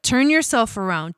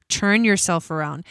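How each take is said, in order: First: 'turn' said with a clean, crisp t; corrected word. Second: The 'Churn' slip repeated on purpose, ch not t; tongue slip. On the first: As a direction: fix the slip, land the t in 'turn'. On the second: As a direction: say 'Churn' with a ch sound where a t belongs. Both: Shown as a demonstration. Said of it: "I don't know what I was about to say".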